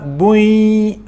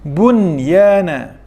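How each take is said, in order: First: The n merges into the next sound with nasalization. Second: The n sound is pronounced clearly and separately. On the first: The speaker calls it wrong. "bukannya diidgham serta dengung, tidak, seolah-olah bui, bukan begitu" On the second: The speaker calls it right. "diizharkan, dinyatakan sebutan nun"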